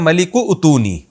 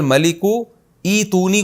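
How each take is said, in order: First: The second word starts with an 'oo' sound. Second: The second word starts with a long 'ee' sound. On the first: "को पढ़ा जाता है मलिकु उतूनी" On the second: "क़ाल अल मलिकु ईतूनी"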